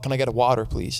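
It is said in an American accent.

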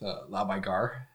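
It is said in a northern accent.

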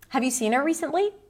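The voice rises at the end. The speaker expects a simple yes or no answer. "Let's take a simple, typical yes-no question"

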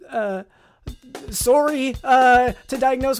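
It is said in a put-on Canadian accent.

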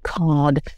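The R after the vowel is dropped.

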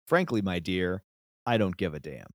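A dramatic pause comes before the final phrase.

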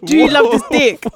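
It is said in an intense, forceful tone. The speaker calls it right. "Say it how you'd say it in the moment. ... You're like"

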